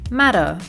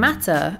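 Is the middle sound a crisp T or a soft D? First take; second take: soft d; crisp t. First: The middle consonant is a soft D sound. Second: The middle consonant is a crisp T sound. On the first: "Americans say matter" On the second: "So instead of saying matter"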